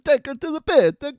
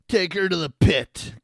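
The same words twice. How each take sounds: First: It is said in an Italian accent. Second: It is said without an Italian accent.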